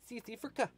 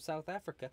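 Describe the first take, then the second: First: It is said in a put-on South African accent. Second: It is said in the speaker's normal accent.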